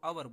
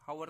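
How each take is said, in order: First: The word begins directly with a vowel sound. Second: The word begins with an audible h sound. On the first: The speaker calls it right. "आवर बोलते हैं" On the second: The speaker calls it wrong. "हवर नहीं बोलते हम"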